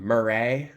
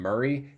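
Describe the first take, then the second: First: "Murray" said as mur-RAY, ending in a long "ay"; drawn-out second syllable. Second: Said in the usual way. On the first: Shown as a demonstration. Showing how Joker renames the host, "Murray" as mur-RAY. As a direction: say "Murray" to rhyme with "hooray". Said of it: "he calls him Murray". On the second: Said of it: "instead of calling him Murray".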